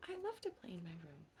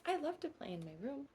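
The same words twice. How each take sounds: First: Lower, softer and fast, almost to herself; soft quick echo. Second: Said in the usual way. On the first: Acted. Echoing to a little friend in a soft quick murmur. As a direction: tuck the repeat away quietly.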